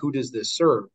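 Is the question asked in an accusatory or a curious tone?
accusatory. The question sounds scolding and accusatory. The asker is blaming the listener. The speaker calls it wrong. "it's not like in a finger wag"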